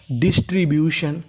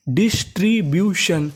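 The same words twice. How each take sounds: First: Said in the usual way. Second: "डिस्ट्रीब्यूशन" in separate drawn-out parts, डिस-ट्री-ब्यू-शन; syllable by syllable. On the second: Shown as a demonstration. Teacher giving students the full word, slowly syllable by syllable. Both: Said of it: "पूरी meaning".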